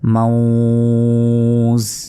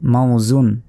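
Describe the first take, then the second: First: The word stops on a bare final consonant. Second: The word ends with the full -un ending.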